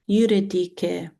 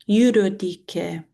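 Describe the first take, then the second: No difference in how they are said.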